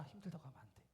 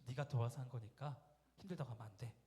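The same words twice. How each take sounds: First: Said in the usual way. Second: Cutting rebuke. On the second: Retold or imitated. Mother sharply cutting off her tired son's complaint. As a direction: cut him off like a knife. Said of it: "칼 자르듯이".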